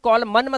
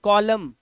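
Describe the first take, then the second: First: The word ends with an n sound. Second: The word ends on the m sound. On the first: The speaker calls it wrong. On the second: The speaker calls it right.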